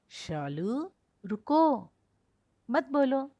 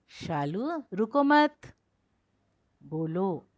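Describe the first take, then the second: First: The pause comes right after 'ruko'. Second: The pause comes right after 'mat'.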